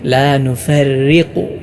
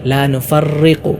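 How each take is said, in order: First: The r is light without repeated vibration. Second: The r is trilled with repeated vibration. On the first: The speaker calls it right. "ഇങ്ങനെയാണ് ഓതേണ്ടത്" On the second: The speaker calls it wrong. "ഇവിടെ പലരും ഓതാറുള്ളത് ... അങ്ങനെയല്ല ഓതേണ്ടത്"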